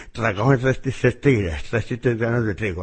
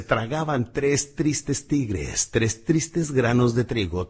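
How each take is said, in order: First: "Tragaban tres tristes tigres" mumbled around a pen, tongue blocked; pen in mouth. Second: "Tragaban tres tristes tigres" said slowly, every syllable crisp; over-articulate each t and r slowly; slow clear tongue twister. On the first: Coach repeating the twister with a pen in his mouth, muffled. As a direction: say the twister with a pen clamped in the teeth. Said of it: "Te pones la pluma en la lengua". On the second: Coach demonstrating the twister clearly, slow and crisp. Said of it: "Hay uno muy bueno que dice". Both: Shown as a demonstration.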